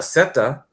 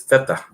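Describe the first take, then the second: First: The word begins with an 's' sound. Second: The word begins with a 'th' sound. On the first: This is how Spanish is spoken in California. "like the way we say it in Spanish here in California" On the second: This is how Spanish is spoken in Barcelona. "she has that that funny theta"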